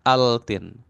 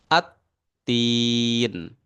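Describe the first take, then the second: First: A clear L sound comes before the T. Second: The L is dropped, going straight into T. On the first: The speaker calls it wrong. "harusnya kan altin" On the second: The speaker calls it right. "lamnya dilewatkan dari a langsung masuk ke ta"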